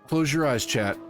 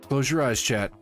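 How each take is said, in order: No difference in how they are said.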